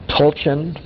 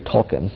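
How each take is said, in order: First: The middle consonant is a 'ch' sound. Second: The middle consonant is a 'k' sound. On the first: "I guess that's probably how it should be pronounced" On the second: "I want to pronounce the C H as K"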